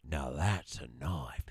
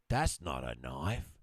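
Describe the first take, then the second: First: Low, slow whispered menace; Dundee whisper. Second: A hint of Dundee, low and slow; Dundee quote. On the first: Retold or imitated. Husband retells Dundee pulling his knife, low slow whisper. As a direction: breathe it out slow and low, unimpressed. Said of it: "He's like". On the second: Husband retells the mugging scene, low slow Dundee line. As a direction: play it cool and unimpressed, slow. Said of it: "Crocodile Dundee goes like this".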